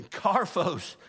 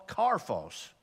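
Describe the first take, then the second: First: "karphos" said firmly, stress put right after a fumble; a clean, confident second go at "karphos"; corrected emphasis. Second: "karphos" with the stress misplaced, tailing off lower; wrong-syllable emphasis. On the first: Teacher retrying the Greek word for speck, corrected emphasis. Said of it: "I'm getting the emphasis on the wrong syllable". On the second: Teacher fumbling a Greek word for class, wrong-syllable emphasis. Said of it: "getting the emphasis on the wrong syllable". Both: Real, not acted.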